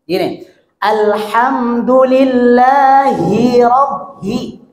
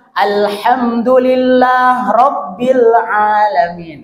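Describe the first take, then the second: First: Slow "alhamdulillahi" with the final "hi" spoken clearly. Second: Slow "Alhamdulillah rabbil alamin" with no "hi" before "rabbil"; dropped hi. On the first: Teacher modelling the clear kasrah. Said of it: "Hi-nya harus jelas". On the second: Teacher showing the common mistake. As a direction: skip the "hi" after "Alhamdulillah". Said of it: "jangan sampai gini". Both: Shown as a demonstration.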